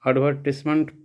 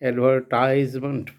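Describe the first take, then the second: First: It is said in a British English way. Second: It is said in an American English way. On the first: "UK English में इसे एडवर्टिजमेंट पढ़ते हैं" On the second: "American English में इसे एडवर्टाइजमेंट पढ़ते हैं"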